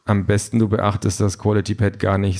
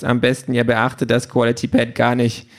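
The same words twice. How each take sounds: First: Said in the usual way. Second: Offended machine mimicking advice in a put-on voice; huffy. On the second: A narrator's reading. Pink parrots Peter's advice to ignore it, huffy. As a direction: echo it back huffily, in character. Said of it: "Pink ist aber schon eingeschnappt".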